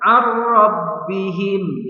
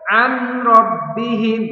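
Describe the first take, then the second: First: The n sound merges fully into the r. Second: The n sound is kept before the r. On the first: The speaker calls it right. "Yang benar ar-rabbihim" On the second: The speaker calls it wrong. "tidak boleh an rabbihim"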